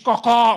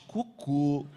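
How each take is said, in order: First: It has a European Portuguese open final vowel. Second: It has a Brazilian Portuguese closed final vowel.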